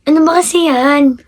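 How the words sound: It is said in a happy tone.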